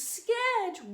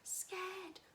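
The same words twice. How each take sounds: First: It is said very loudly. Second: It is said very quietly.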